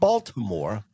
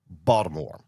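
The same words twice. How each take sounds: First: The city name is said in a standard way. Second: The city name is said in a local way. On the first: The speaker calls it wrong. "Not Baltimore" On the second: The speaker calls it right. "Say it correctly"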